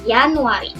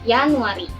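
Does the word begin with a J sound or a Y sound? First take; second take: Y sound; Y sound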